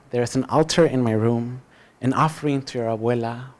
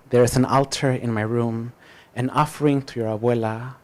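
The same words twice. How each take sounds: The two takes are said the same way.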